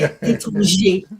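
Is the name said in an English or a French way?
French. The name is said with French pronunciation. This is the proper way to say it. "you say"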